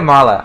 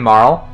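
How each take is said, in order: First: The name ends with a sounded final vowel. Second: The name ends without any final vowel. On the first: "I always say Marla. I say the E" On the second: "most people say Marl"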